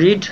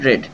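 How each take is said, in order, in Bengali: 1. স্বরধ্বনিটি দীর্ঘ, 'reed' এর মতো। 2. স্বরধ্বনিটি হ্রস্ব, 'red' এর মতো।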